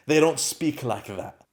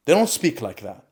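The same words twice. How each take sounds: First: Slow with They leaned on; slow first take, weight on They; stress on they. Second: Don't hit hard at normal pace; quicker repeat, don't stressed. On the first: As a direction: drag it out, pressing on They. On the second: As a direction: punch the word don't. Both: Real, not acted.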